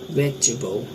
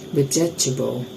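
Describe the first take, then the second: First: A middle vowel is dropped from the word. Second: Every syllable is pronounced in full. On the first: "After elision we pronounce it" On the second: "The next word is uh"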